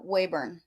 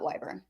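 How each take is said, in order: First: The first syllable sounds like 'way'. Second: The first syllable sounds like 'why'. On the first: The speaker calls it right. "it's uh, Weyburn" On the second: The speaker calls it wrong. "not Wyburn"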